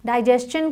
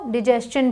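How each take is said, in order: First: डाइजेशन with "dai" in the first syllable; first pronunciation variant. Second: डिजेशन with short "di" in the first syllable; alternative pronunciation. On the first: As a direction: say डाइजेशन with a long eye vowel first. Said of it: "डाइजेशन को डिजेशन भी बोलते हैं". (डाइजेशन में पहले "डाइ" की आवाज़) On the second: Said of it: "डिजेशन भी बोलते हैं". (डिजेशन में पहले छोटी इ की आवाज़) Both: Shown as a demonstration.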